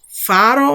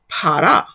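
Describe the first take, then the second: First: The word begins with an f sound. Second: The word begins with a p sound. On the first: This is the later, non-original pronunciation. The speaker calls it wrong. "instead of saying faro" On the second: This is the likely original pronunciation. The speaker calls it right. "which is how our ancestors likely pronounced it"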